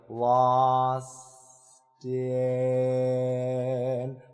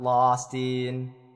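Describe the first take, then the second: First: The voice sounds relaxed and unclenched. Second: The voice sounds tense and clenched. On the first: The speaker calls it right. "I had to unclench, like really consciously go like" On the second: The speaker calls it wrong.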